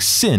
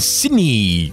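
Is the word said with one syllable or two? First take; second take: one; two. First: The word is said as one syllable. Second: The word is said as two syllables. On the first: The speaker calls it right. "it's still handling sin" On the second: The speaker calls it wrong. "and not like handling sinny"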